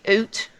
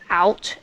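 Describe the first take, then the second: First: The vowel sounds like a long 'oo'. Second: The vowel sounds like the standard 'ow'. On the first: "it has to be oot" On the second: "if you say like out"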